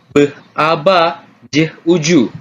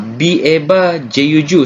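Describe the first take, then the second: First: Each letter is spoken as its sound. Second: Each letter is spoken by its alphabet name. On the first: "dibunyikan seperti" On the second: "seperti yang kita eja sebelum-sebelum ini"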